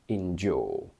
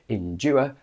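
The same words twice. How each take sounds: First: It ends with a long 'or' vowel. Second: It ends with the diphthong 'ua'. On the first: This is how people say it today. The speaker calls it right. "but we only say" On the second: This is the old, obsolete pronunciation. The speaker calls it wrong. "Technically, we should say"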